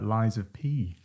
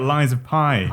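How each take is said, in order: First: The last word sounds like 'pee'. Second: The last word sounds like 'pie'. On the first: The speaker calls it right. "the first time I said it correctly" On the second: The speaker calls it wrong. "I'm always talking about Lies of Pi"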